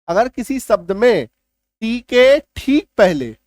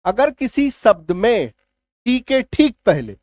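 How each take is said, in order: Both takes have the same delivery.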